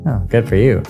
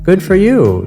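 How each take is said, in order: First: It is said with a sarcastic tone. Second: It is said sincerely and plainly.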